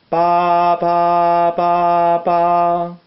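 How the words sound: The syllables are joined smoothly together. "legato, que sería unir una nota con otra"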